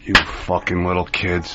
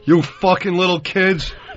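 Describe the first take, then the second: First: The voice is lowered and quiet. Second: The voice is loud and booming. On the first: The speaker calls it right. "give it the lower voice" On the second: The speaker calls it wrong. "Didn't say making a [name]"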